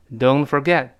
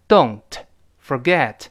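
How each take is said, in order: First: "Don't forget" linked, both final t's held back; unreleased t. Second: "Don't ... forget" split by a pause; word by word. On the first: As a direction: run "Don't forget" together without releasing the t. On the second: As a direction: say "Don't", stop, then "forget". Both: Shown as a demonstration. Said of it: "那个t失去爆破".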